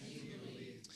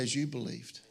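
First: Whispered very softly. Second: Said in the usual way. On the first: Shown as a demonstration. Preacher echoing the phrase to the congregation, whispered. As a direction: breathe it as a hushed secret. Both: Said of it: "Everybody say".

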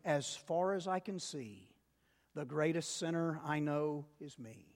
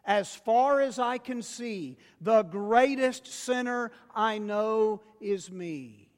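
First: Soft reflective lead. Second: Louder congregational call. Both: Shown as a demonstration. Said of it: "Y'all say that with me".

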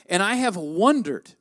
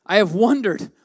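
First: Said in the usual way. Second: "have" leaned on, the whole line louder; louder, insisting on "have"; stress on have. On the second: Real, not acted. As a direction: press hard on "have" in "I have wondered".

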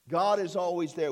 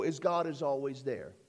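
First: God is always there, with "God" hit firmly and louder; stress on God. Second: Said in the usual way. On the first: Shown as a demonstration. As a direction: repeat it with weight on "God".

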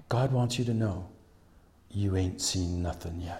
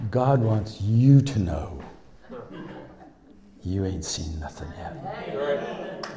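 First: Soft, sinking delivery; low and soft, letting it land; hushed retold prophecy. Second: Slow, deliberate proclamation leaning on "you"; emphatic prophecy to listeners. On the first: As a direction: pass on the prophecy quietly. Retells woman's parting prophecy, hushed. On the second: Acted. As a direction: stretch "you" in "God wants you to know". Turns prophecy directly onto the congregation.

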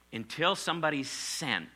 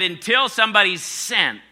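First: Said in the usual way. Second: "until" hit hard, louder and higher; emphatic repeat. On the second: Shown as a demonstration. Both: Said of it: "I said, until somebody's sent".

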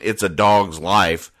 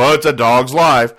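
First: Said in the usual way. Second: Louder, higher mock lament of "Oh, it's a dog's life"; hammed-up sorry-for-myself groan; mock weary sigh. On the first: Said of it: "people use the expression". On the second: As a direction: play someone moaning "it's a dog's life". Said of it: "I've never heard anybody go".

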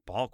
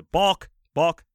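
First: Puzzled echo, rising at the end; disbelieving question. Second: Raised, louder one-word call; umpire's call. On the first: Player echoes call in disbelief. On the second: Umpire calls out a foul. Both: Retold or imitated.

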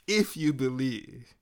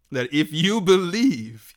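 First: The phrase said again, much softer and slow; a quiet, slow echo of the first if you believe; softer repeat. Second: Said in the usual way. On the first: Acted. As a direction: let the repeat drop to a soft, slow hush.

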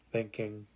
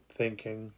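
No difference in how they are said.

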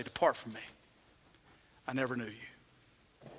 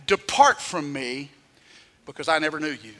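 First: Soft solemn final judgment; hushed verdict. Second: Stern judgment. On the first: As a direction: let the sentence fall almost silent. The Master's verdict, told sadly. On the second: Jesus answers the boasters. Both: Retold or imitated.

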